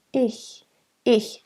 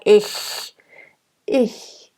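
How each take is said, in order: First: Ich soft and bright, breathy ch. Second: Ich pressed tight in the throat. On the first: Coach showing the right soft ich. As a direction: keep the ich soft and open. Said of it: "It's very soft and it's very bright". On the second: Coach showing the wrong tight ich. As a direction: squeeze the ich too hard. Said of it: "You don't wanna be too tight in your throat". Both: Shown as a demonstration.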